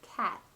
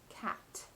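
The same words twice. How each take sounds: First: The final T is held without release. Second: The final T is released with a puff. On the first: "the second one holds the tip of the tongue at that tooth ridge, creating the held T" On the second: "the first one is pronounced with a release of breath"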